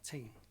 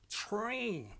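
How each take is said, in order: First: The R sound is weak or replaced. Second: The R is a strong growling sound. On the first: The speaker calls it wrong. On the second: The speaker calls it right. "like to make dogs growling sounds"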